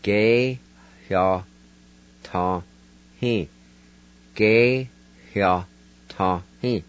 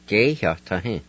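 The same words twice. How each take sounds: First: "Ge hya ta hin" split into separate syllables, faint h before "hya". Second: "Ge hya ta hin" run together as one flowing word with a faint h before "hya"; whole word. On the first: Teacher to Cherokee learners, spelling out each syllable carefully. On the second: Teacher to Cherokee learners, saying the full word. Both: Shown as a demonstration. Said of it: "And it's pronounced like this".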